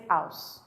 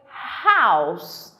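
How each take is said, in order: First: The initial h sound is dropped. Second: The initial h sound is clearly pronounced. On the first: The speaker calls it wrong. "no strength, no energy" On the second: The speaker calls it right. "It takes strength to say house"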